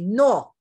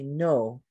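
First: It has a short, pure Spanish o vowel. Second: It has a long, gliding English oh vowel. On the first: "In Spanish, I would say no" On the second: "In English, you say no"

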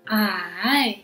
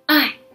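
First: The syllable is said with the third tone. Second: The syllable is said with the fourth tone. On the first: "Third tone is I" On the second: "Last tone is I"

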